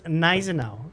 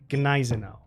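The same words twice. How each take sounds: First: The G at the start is left silent. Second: The G at the start is clearly pronounced. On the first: The speaker calls it wrong. "It was Gneisenau, like silent" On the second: The speaker calls it right. "it's pronounced Gneisenau. You know, it's it's a G"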